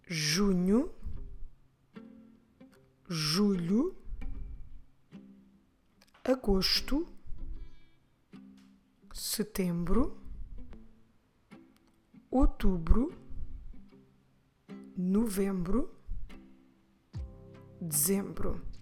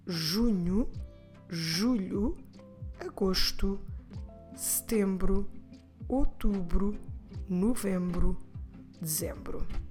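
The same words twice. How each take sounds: First: The months are said at a normal pace. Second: The months are said quickly.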